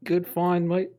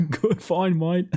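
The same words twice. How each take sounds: First: Bad Australian accent, high and loud; hammy Aussie "good find, mate". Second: Put-on laughing Australian accent, high pitched; giggling through a mock Aussie line. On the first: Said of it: "my worst Aussie accent ever". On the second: Repeats friend's Aussie line laughing.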